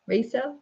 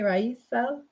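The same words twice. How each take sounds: First: Rysel as RAY-sel, questioning; checking another pronunciation. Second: Rysel as RYE-sel, questioning; checking a pronunciation. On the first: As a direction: try Rysel with a "ray" start, higher. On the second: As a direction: try Rysel softly with a "rye" start. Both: Shown as a demonstration. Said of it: "Am I saying it right?".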